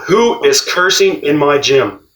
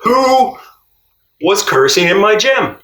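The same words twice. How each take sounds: First: A mild mock yell, slow; retold yell. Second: High mock yell, louder; retold coach yell. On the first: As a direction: call it out slowly, only lightly yelled. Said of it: "And he yelled out". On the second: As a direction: shout it up high like the coach did. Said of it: "this is what he said to me".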